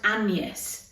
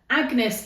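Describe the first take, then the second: First: The middle consonant is a Y sound. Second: The middle consonant is a hard G sound. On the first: The speaker calls it right. "it's pronounced Agnes. So it's like a, a Y instead of the G" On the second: The speaker calls it wrong. "Agnes isn't actually the correct pronunciation"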